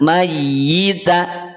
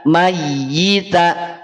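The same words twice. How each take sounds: The two takes are said the same way.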